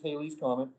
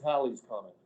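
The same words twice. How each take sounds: First: The first syllable rhymes with 'hay'. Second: The first syllable rhymes with 'pal'. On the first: The speaker calls it wrong. "Most people mispronounce it as" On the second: The speaker calls it right. "It's Halley's Comet"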